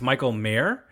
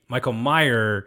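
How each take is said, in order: First: The surname sounds like the word mayor. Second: The surname sounds like the name Myers. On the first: The speaker calls it right. "like the guy who runs a city" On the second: The speaker calls it wrong. "So that was my mispronunciation"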